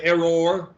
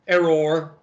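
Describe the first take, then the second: First: The word is said with two syllables. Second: The word is said with one syllable. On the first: This is how people from elsewhere say it. "y'all pronounce it with two syllables" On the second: This is how locals say it. "that's pronounced with one syllable"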